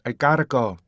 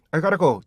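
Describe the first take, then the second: First: "I gotta go" with stressed GOT and long gliding "go"; native-like "I gotta go", weak "ta"; native English rhythm. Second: Konglish "I gotta go", higher and louder; wrong rhythm, Korean learner's accent; Korean-accented English. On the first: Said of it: "이렇게 읽어요". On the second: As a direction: read "I gotta go" in quick Korean syllables. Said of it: "절대 이렇게 안 읽어요". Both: Shown as a demonstration.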